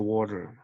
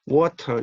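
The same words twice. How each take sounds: First: The middle consonant sounds like a soft R. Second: The middle consonant is a clear T. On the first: The speaker calls it right. "이 D와 T는 R로 발음한다는 거예요" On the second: The speaker calls it wrong. "그 water가 아니라"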